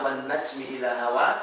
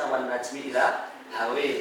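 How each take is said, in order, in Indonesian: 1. Vokal akhirnya bunyi 'a' terbuka. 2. Vokal akhirnya condong ke bunyi 'e'.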